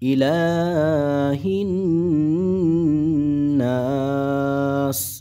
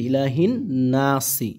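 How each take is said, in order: First: The last word ends on the s, no vowel. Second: The last word ends with a short i vowel. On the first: The reciter stops at the end of the verse. "ওয়াকফের কারণে কি হয়ে যায়" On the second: This is the word's full form without stopping. "মূলত শব্দটা আছে কি ইলাহিন নাসি"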